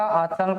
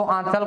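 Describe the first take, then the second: First: "आंचल" with the nasal dropped, like "आचल"; denasalised pronunciation. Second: Said in the usual way. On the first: Shown as a demonstration. Teacher showing nose-closed speech, "आंचल" denasalised to "आचल". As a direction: say "आंचल" through the mouth only, no n sound. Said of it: "नाक को बंद करके आंचल शब्द का उच्चारण करो". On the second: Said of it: "आंचल नहीं होगा".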